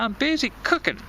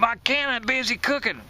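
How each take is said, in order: First: Higher, mild retold yell from the kitchen; irritated mother's higher call; mock yell. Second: A fed-up mother calling back, pitched up; a hint of screaming back; mild mock scream. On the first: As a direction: call it back, annoyed and pitched up. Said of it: "She's yelling at him from inside the kitchen". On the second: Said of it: "she screams back at him".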